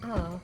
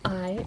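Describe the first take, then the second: First: The vowel is changed to an 'ah' sound. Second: The vowel is the usual 'eye' sound. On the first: "every vowel is going to be the letter A" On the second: "instead of I"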